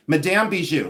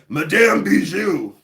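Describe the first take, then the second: First: Said in the usual way. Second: Hammed-up French accent, louder, higher and drawn out; slow, put-on French accent on the name; best French accent. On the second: Mysterious lady giving her name in a dark alley, hammed-up French accent. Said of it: "That's my best French accent".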